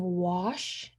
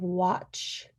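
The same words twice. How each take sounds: First: "wash" said with SH where TCH belongs; disordered wash. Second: Said in the usual way. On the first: Shown as a demonstration. Student demoing deaffrication, "wash" with SH. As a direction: say "wash" ending in a soft SH. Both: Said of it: "saying wash instead of watch".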